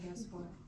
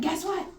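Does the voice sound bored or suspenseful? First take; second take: bored; suspenseful. First: It is said in a flat, bored way. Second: It is said in a lively, suspenseful way. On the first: The listener is not drawn in. The speaker calls it wrong. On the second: The listener is made eager to hear more. The speaker calls it right.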